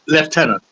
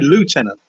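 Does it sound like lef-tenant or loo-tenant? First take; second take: lef-tenant; loo-tenant. First: It is said the British way, lef-tenant. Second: It is said the American way, loo-tenant.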